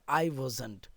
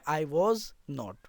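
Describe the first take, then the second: First: 'Was not' is joined into one short word. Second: 'Was' and 'not' are said as separate words. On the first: "वॉज और नॉट को मिला के हम लोग वजंट बोलते हैं" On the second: "आई वजंट को ही हम लोग बोल सकते हैं आई वॉज नॉट"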